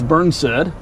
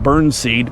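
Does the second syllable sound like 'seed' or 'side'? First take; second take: side; seed. First: The second syllable sounds like 'side'. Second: The second syllable sounds like 'seed'. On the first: The speaker calls it right. "I think it's Burnside" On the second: The speaker calls it wrong. "I used to mispronounce that and call it Burnseed"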